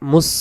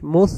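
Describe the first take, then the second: First: The s sound is sharp and light. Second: The s sound is soft. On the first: The speaker calls it wrong. "মুস এমন আওয়াজ আসবে না" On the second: The speaker calls it right. "মুস নরম করে"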